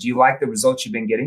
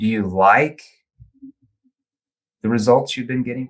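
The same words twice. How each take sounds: First: It is fast, with no pause before like. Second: It is slow, with a pause and stressed like. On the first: It lacks the same emotional impact. The speaker calls it wrong. "if we said it fast like this" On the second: It draws the listener in to really think. The speaker calls it right. "we pause there ... emphasizing the word like"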